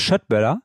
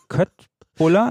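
First: The word begins with a sh sound. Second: The word begins with a k sound. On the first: "da ist das Schöttböller, glaube ich" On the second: "Wird ja geschrieben Kött. Buller"

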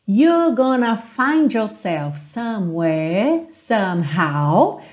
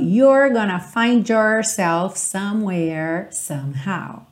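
First: The R sounds are not curled; less American. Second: Curled R sounds give a more American accent.

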